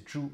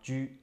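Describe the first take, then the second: First: The word begins with a retroflex 'zh' sound. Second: The word begins with a plain 'j' sound. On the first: The speaker calls it right. "So it is Zhu" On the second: The speaker calls it wrong. "not Zhu"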